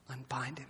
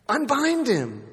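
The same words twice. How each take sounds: First: Unbind him dropped to a near-silent hush; hushed echo. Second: Unbind him called out much higher, ringing; commanding call. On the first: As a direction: let Unbind him fall almost to nothing. Quiet echo after the loud charge. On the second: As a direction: proclaim Unbind him to the crowd. Jesus commanding the crowd. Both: Acted.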